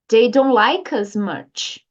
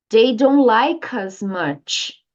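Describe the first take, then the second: The two takes are said the same way.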